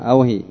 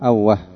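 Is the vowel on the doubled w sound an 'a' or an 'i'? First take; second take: i; a. First: The doubled w carries an 'i' vowel. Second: The doubled w carries an 'a' vowel. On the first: "وقد تكسر، والهاء ساكنة" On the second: "مشددة الواو مفتوحة"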